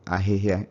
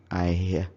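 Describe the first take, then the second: First: All consonants of the word are pronounced. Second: Some consonants drop out of the word. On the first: "instead of ahihia" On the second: "you would hear ahihia"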